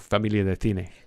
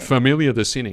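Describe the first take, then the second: First: The name is said with a Spanish accent. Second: The name is said with an English accent. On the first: "in Spanish we would go" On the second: "we're speaking to everybody in English and we're saying it's called"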